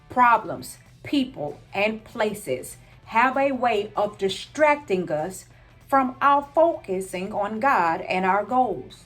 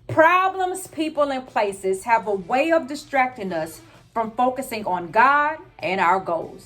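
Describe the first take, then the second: First: It is said slowly. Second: It is said at a normal pace.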